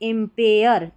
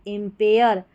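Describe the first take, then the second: The two takes are said the same way.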